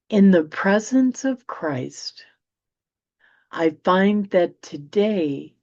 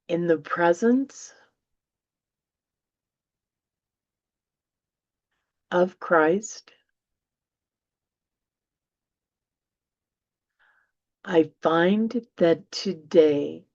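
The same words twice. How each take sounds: First: It is read at a normal pace. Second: It is read more slowly.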